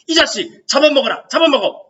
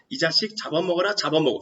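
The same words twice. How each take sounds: First: It is said in a heated, overbearing tone. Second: It is said in a calm, unexcited tone. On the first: The speaker calls it right. "이런 어투예요. 격앙되고 기세등등한 어투입니다" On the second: The speaker calls it wrong. "이 어투가 아니라고요"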